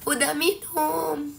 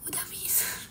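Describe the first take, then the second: First: Higher, slow, stretched-out repeat; forced voice. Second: Very soft, whispered reply with no voice; voiceless. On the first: Repeating to viewers that they already drank, forcing the voice. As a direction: force the hoarse voice up and draw the words out. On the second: Streamer telling viewers they already had a drink, voiceless. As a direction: let only air come out. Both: Real, not acted.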